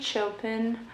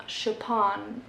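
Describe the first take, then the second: First: Chopin said English-style, CHOH-pin; English-style pronunciation. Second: Chopin said slowly French-style, sho-PAN; French-style pronunciation. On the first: Naming the author to book-haul viewers, English-style CHOH-pin for Chopin. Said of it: "say it like that as well". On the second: Offering how other people say it, slow French-style sho-PAN for Chopin. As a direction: draw out Chopin the French way, stress on the end. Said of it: "I heard people say it like that". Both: Shown as a demonstration.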